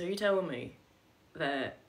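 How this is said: It is said in a put-on Southern accent. "I'm doing a terrible accent"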